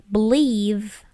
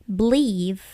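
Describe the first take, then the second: Both takes have the same delivery.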